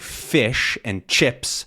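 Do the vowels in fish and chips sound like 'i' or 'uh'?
i. The vowels in both words sound like short i. "instead of saying fish and chips"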